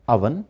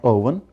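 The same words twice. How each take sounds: First: "oven" with a short UH at the start; "oven" opening on the vowel of "up"; correct pronunciation of oven. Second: "oven" with a long OH at the start; "oven" mispronounced with an initial "oh" sound; wrong pronunciation of oven. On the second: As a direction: say "oven" as OH-vun. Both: Shown as a demonstration. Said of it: "not oven".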